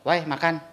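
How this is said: It is said in a pleasant, friendly tone. It is a friendly invitation to eat. "enak kan?"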